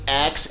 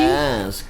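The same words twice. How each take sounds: First: The word sounds like ax, ending in ks. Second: The word sounds like ask, ending in sk. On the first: The speaker calls it wrong. "every time I used to say the word ask or ax" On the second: The speaker calls it right. "You can only ask"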